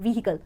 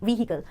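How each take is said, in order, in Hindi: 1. h sound तेज़ और अलग है। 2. h साउंड तेज़ और अलग है।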